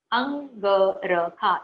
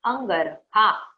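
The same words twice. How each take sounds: First: अंगरखा drawn out very slowly, syllable by syllable; slow careful अंगरखा for children to copy; pronunciation drill. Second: अंगरखा said very slowly with a rise at the end; pronunciation drill. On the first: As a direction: stretch अंगरखा out so every sound is clear. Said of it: "इसका उच्चारण हमें करना है". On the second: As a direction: draw out अंगरखा and lift the last syllable. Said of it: "इसका उच्चारण हमें करना है अंग, अंगरखा". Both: Shown as a demonstration.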